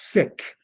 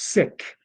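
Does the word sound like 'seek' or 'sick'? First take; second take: sick; sick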